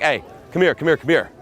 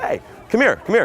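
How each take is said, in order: First: Louder, higher, insistent order; commanding. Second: High, upbeat beckoning order; commanding but fun. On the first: Pickup coach demonstrating bringing a girl over, commanding. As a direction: order her over, repeating it briskly. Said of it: "one, commanding". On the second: Pickup coach inviting a girl over, commanding but fun. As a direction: call her over to the better party. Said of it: "commanding, but also fun". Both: Shown as a demonstration.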